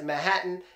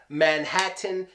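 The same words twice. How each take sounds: First: The middle T is a glottal stop. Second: The middle T is a full, released T. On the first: The speaker calls it right. "Everyone says Manhattan. It gets the Putin T" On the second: The speaker calls it wrong. "No one says Manhattan"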